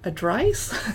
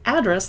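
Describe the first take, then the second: First: The second syllable rhymes with 'rice'. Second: The second syllable rhymes with 'dress'. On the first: The speaker calls it wrong. "to me it looks like adrice" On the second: The speaker calls it right. "It's address, like what's at your address"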